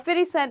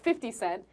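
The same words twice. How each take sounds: First: The name is said in a casual street style. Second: The name is said in a plain, careful style. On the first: The speaker calls it right. "I'm going to say it the right way" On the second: The speaker calls it wrong.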